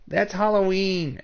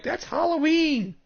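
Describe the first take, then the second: First: Toned-down repeat, somewhat higher; echoing the mock exclamation. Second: High, squeaky mock exclamation; mocking people's exclamation. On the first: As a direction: say it again, lighter and less exaggerated. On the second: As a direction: parrot the crowd in a silly high voice. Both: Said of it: "people are like".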